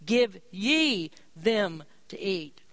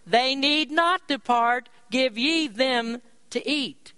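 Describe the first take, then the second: First: Slow, with ye drawn out and weighted; stress on ye. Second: Slow, weighty King James command with stress on ye; the preacher reads Jesus' order to the disciples, slow and emphatic. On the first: Shown as a demonstration. Preacher showing the emphasis, stressing ye slowly. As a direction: lean hard on the word ye. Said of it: "the emphasis is placed here on the word ye". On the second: Retold or imitated. Preacher voicing Jesus, slow stress on ye. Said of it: "Jesus' reply".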